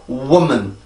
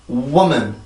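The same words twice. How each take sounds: The two takes are said the same way.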